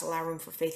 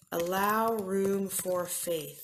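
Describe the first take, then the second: First: Said in the usual way. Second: Allow room for faith, each word slowed and weighed; slow emphasis. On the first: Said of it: "Think and Grow Rich class". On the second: Shown as a demonstration. Pastor spells out the book's step, slow and deliberate. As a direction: lay out allow room for faith slowly like a title. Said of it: "Napoleon Hill's".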